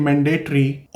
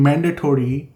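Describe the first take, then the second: First: "mandatory" as man-DAY-tree; accustomed Indian pronunciation. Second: "mandatory" with a full "tory" ending; Canadian pronunciation. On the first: Showing newcomers the old habit, "mandatory" as man-DAY-tree. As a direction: say "mandatory" with "day" in the middle and a short ending. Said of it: "you are used to say". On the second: Showing newcomers how Canadians say it, "mandatory" with a full -tory ending. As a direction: say "mandatory" as MAN-duh-tory. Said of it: "hundred people are saying mandatory". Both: Shown as a demonstration.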